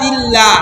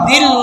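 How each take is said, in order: First: The L is thin, with an a-like vowel. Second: The L is thick, with an o-like vowel. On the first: The speaker calls it right. "এটা লা হবে কারণ জের আসছে" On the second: The speaker calls it wrong. "দিল্ল না"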